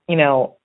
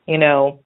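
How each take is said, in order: Both takes have the same delivery.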